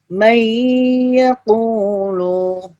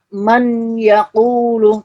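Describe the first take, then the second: First: The n sound merges into y with nasal hum. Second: The n sound is pronounced clearly and separately. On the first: The speaker calls it right. "tapi may yaqulu" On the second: The speaker calls it wrong. "bukan dibaca"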